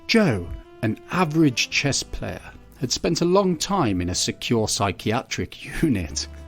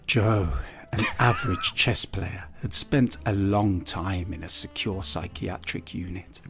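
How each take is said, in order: First: It is read in a very feminine-sounding voice. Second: It is read in a deliberately sexy, seductive voice. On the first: "that is the most feminine voice I've ever heard in my life" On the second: "let me try sexier"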